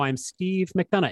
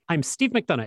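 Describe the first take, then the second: First: The name is said slowly, with a pause. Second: The name is said quickly, run together. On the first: The speaker calls it right. "I'm trying out a new thing where I go" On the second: The speaker calls it wrong. "it goes too quickly"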